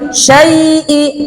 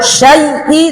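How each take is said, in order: First: The vowel is held a little longer. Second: The vowel is held only briefly. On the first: The speaker calls it right. "tapi syai'i, agak lama sedikit ya" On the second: The speaker calls it wrong. "jangan syai'i"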